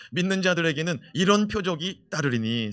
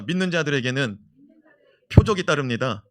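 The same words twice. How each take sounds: First: Said in the usual way. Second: Loud declaration. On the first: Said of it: "시작". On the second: Shown as a demonstration. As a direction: proclaim 믿는 loudly, pausing before 따릅니다. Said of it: "선포합시다". (크게 선포하듯)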